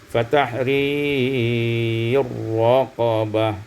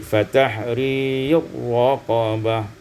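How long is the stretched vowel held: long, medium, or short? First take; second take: medium; short. First: The stretched vowel is held for a medium length. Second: The stretched vowel is held only briefly.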